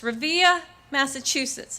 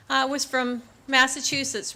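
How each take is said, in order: First: Put-on Boston accent. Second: Said in the usual way. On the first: Remembering the Marine's hometown, light Boston accent. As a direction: mimic a Boston Marine saying his hometown. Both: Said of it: "as he would say in his Boston accent".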